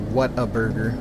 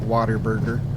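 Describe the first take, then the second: First: The three words are said clearly and separately. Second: The words run together like 'water burger'.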